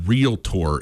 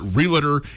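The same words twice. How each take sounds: First: The word is said in its standard pronunciation. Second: The word is said in the local Montana pronunciation. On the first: The speaker calls it right. "I know that realtor is how you say it" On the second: The speaker calls it wrong. "just sort of the way that it's always kind of been said around Montana"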